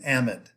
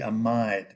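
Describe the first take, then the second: First: The middle vowel is not a long i. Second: The middle vowel is a long i sound. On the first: The speaker calls it right. "We have unusual ways of pronouncing certain words" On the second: The speaker calls it wrong. "That should be amide because that makes the I long"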